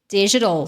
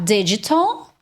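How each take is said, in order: First: It is said in an American accent. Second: It is said in a British accent. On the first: "ou no American" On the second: "que é mais britânico"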